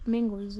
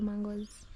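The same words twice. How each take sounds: First: "mangoes" with an "e" in the first syllable; pronunciation variant. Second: "mangoes" with an open "mang" first syllable; pronunciation variant. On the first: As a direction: say "mangoes" as MENG-goes. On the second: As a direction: say "mangoes" as MAHN-goes. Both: Shown as a demonstration. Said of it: "Is it mangoes or mangoes".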